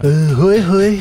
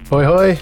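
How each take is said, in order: First: It is said in a Mister Burns voice. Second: It is said in his normal voice.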